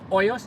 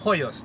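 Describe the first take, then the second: First: The opening H sound is silent. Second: The opening H sound is pronounced. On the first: "It's not Hoyos" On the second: "The H is not silent"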